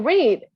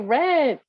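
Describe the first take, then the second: First: The word rhymes with 'reed', not 'red'. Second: The word sounds like the color 'red'. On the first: The action happens now. "Impressive we say read" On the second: The action happened in the past. "like the color red"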